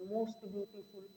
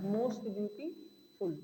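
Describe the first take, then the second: First: Said in the usual way. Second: Slow and deliberate. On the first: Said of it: "teacher repeats example". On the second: Shown as a demonstration. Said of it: "teacher repeats example slowly".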